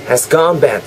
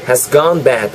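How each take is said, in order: No difference in how they are said.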